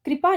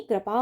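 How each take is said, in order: First: कृपा said as "kri-paa", higher and louder; wrong i vowel. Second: कृपा said as "kra-paa"; correct first syllable. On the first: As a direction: give कृपा an i in its first syllable. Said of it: "कृपा नहीं". (कृपा को "क्रिपा" बोलें) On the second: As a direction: open short vowel after kr in कृपा. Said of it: "कृपा होगा". (कृपा को "क्रपा" जैसा बोलें) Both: Shown as a demonstration.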